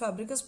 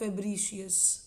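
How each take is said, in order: First: It is said the common everyday way. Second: It is said the technical, formal way. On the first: "बहुत लोग इसको बर्सा ऑफ फैब्रिकस बोल देते हैं" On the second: "technically if you want to pronounce it"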